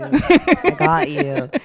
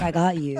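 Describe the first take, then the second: First: Much higher, louder and very slow; drawn-out promise. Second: Said in the usual way. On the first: Retold or imitated. Promising the kids she'll send the video, stretched high and slow. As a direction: stretch it out high and sing-song.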